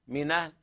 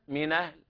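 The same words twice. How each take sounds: The two takes are said the same way.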